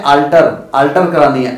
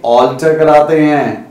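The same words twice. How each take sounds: First: "अल्टर" said with a short flat a, the wrong way; the mistaken "अल्टर"; wrong alter. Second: "ऑल्टर" with an open rounded aw vowel; correct alter. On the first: Teacher mocks the common wrong "अल्टर". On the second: Teacher gives the right "ऑल्टर" to students. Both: Shown as a demonstration. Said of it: "अल्टर नहीं कराते".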